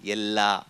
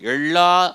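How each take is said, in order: First: The L is made with tongue behind front teeth. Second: The L is made with the tongue curled back. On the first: The speaker calls it right. "நாக்கு வந்து முன்பல் ... பின்னாடி போய் எப்படி தொடணும்" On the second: The speaker calls it wrong. "எல்லா அப்படின்னு சொல்லக்கூடாது"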